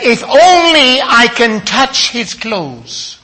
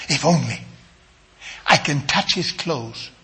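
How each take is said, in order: First: Higher, slow, drawn out on "only"; emphatic quote. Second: Low, soft, reflective repeat; hushed quote. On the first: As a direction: proclaim her hope, stretching "only". First take of the woman's words. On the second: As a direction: say it softly, as if to herself. Hushed repeat of the woman's words. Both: Retold or imitated.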